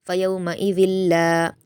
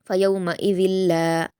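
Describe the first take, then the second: No difference in how they are said.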